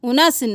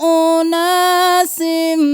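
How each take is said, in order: First: The vowel after the n is short. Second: The vowel after the n is lengthened. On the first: The speaker calls it wrong. "उनासिन नहीं करना" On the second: The speaker calls it right. "नून के साथ अलिफ मद्दा है"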